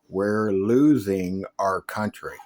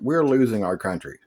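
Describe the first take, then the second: First: It is said very slowly. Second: It is said at normal speed.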